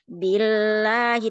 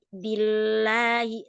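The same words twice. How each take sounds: First: The first syllable is drawn out with a swing. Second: The first syllable runs straight into the l. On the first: The speaker calls it wrong. "jangan billahi ... enggak diayun" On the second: The speaker calls it right. "tapi billahi langsung ke lam"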